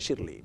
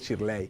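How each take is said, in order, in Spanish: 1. El nombre se dice con acento americano. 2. El nombre se dice con acento español. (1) "yo me creí que era más americana" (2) "pero es Shirley"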